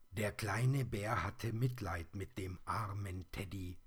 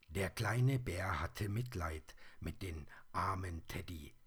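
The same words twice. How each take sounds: The two takes are said the same way.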